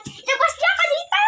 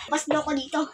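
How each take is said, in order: First: Very high, strained cry; high-pitched prisoner's plea; desperate demand. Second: Said in the usual way. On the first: Acted. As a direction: cry out to be freed from a cell.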